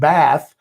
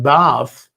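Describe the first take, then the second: First: It is said with an American accent. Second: It is said with a British accent.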